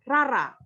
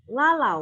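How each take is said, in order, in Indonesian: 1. Nama itu diucapkan dengan bunyi R. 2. Nama itu diucapkan dengan bunyi L. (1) "Menjadi rara" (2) "orang Jepang itu tidak bisa melafalkan dengan la"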